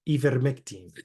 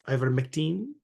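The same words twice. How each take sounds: First: It is said with a Spanish accent. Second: It is said with a Filipino accent. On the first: "We could say like in Spanish" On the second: "We could do the Filipino ways"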